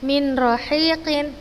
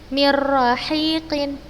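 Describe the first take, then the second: First: The n is kept as a separate sound. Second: The n merges fully into the r without nasality. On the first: The speaker calls it wrong. "bukan seperti uh" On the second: The speaker calls it right. "tapi langsung dimasukkan"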